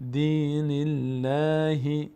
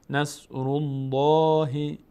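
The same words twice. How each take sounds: First: Slow chant, light L in "الله"; thin light Allah. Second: Slow chant, dark L in "الله"; full heavy Allah. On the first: Teacher comparing after kasra, thin L. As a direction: stretch "الله" with a thin, front L. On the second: Teacher comparing after damma, heavy L. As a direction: round out a long, full "الله". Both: Shown as a demonstration.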